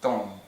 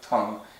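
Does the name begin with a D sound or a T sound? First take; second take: D sound; T sound. First: The name begins with a soft D sound. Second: The name begins with a hard T sound. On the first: The speaker calls it right. "it's still pronounced Dong" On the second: The speaker calls it wrong. "not Dong or, or Tung"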